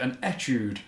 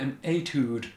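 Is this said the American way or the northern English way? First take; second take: northern English; American. First: It is said with a northern English pronunciation. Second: It is said with an American pronunciation. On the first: "I'm from Wigan, so I'm going to call it an etude" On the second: "in America they call it an etude"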